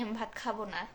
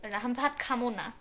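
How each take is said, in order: First: Said in the usual way. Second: খামো said in Bogura dialect in place of খাবো; Bogura dialect form. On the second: Shown as a demonstration. Playfully answering viewers in Bogura dialect, saying খামো.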